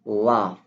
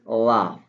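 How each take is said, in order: First: It is said in a British accent. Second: The same.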